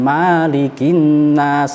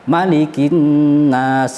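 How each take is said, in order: First: The vowel after the first m is long. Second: The vowel after the first m is short. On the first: The speaker calls it wrong. "jangan malikin nas, salah" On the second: The speaker calls it right. "Memnya pendek"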